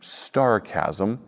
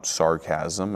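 First: The word starts with an st sound. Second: The word starts with a plain s sound. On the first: The speaker calls it wrong. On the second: The speaker calls it right.

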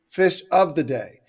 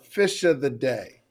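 First: Each word is said clearly and separately. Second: The words are slurred together like one word.

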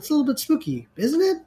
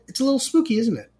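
First: It ends rising, like a question. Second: It ends falling, like a statement.

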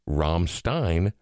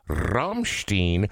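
First: The R at the start is not rolled. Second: The R at the start is rolled. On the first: "without rolling the R" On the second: "a band that I always referred to as"

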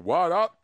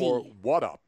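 First: The middle sound is a clear T. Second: The middle sound is a soft D. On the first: "I hear a T there" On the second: "Two D's?"

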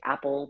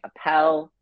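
First: The name sounds like the word 'apple'. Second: The name does not sound like 'apple'. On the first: The speaker calls it wrong. "Some people like to say Apple, but that's not the correct pronunciation" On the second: The speaker calls it right. "that's not the correct pronunciation"

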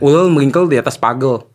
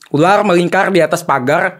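First: The r sounds are pronounced as l sounds. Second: The r sounds are pronounced as r sounds. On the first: "kalau yang cadel bener-bener cadel ya, dia kan ngomongnya gini" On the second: "Masih bisa"

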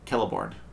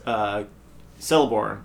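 First: The name begins with a hard K sound. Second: The name begins with a soft S sound. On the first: This is how the show says it. "with a hard C" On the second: This is how the group had been saying it. "as we were calling him"

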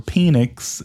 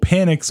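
First: The name sounds like the word 'penis'. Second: The name does not sound like 'penis'. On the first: "or Penix, if you're Ryan Ratchford. ... He just wanted to say penis" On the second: "My boy, Michael Penix"

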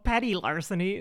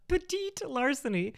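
First: The first word sounds like 'petty'. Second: The first word sounds like 'petite'. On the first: The speaker calls it right. "it's called petty larceny" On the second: The speaker calls it wrong. "not petite larceny"

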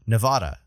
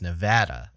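First: It is said the New England way. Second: It is said the local way. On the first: The speaker calls it wrong. "I'm from New England, so I pronounce" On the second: The speaker calls it right. "how it's supposed to be pronounced"

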